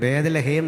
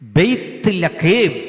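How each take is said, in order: First: It is said as one word with a plain 'h'. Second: It is said with 'bayth' and a throaty 'kh'. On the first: The speaker calls it wrong. "അച്ഛാ തെറ്റാ" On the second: The speaker calls it right. "ബെയ്ത്ത് ലഖേം അങ്ങനെ പറയണ്ടേ"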